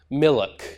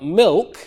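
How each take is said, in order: First: An extra vowel breaks up the l and k. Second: It is said as one syllable, no extra vowel.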